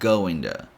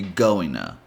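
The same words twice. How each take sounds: First: The t in to sounds almost like d. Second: The t is dropped, blending into an n sound. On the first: "change the T sound to almost a D sound" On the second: "eliminate the D and pretty much add an N sound"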